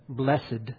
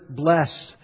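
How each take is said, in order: First: The word is said as two syllables. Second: The word is said as one syllable. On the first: "the way they used to say all their past tenses with the EDs" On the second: "the word blessed"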